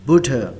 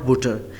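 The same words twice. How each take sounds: First: The final r is very light and faint. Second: The final r is pronounced strongly and clearly. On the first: The speaker calls it right. "हम आर को बिल्कुल लाइट पढ़ेंगे" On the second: The speaker calls it wrong. "Not बुटर"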